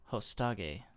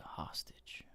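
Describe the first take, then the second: First: "Hostage" said as hoh-STAH-gay; joke mispronunciation. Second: Said in the usual way. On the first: Pretend. Joke on the word's pronunciation.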